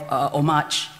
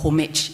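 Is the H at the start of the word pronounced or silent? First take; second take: silent; pronounced. First: The word begins without an H sound. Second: The word begins with an audible H sound.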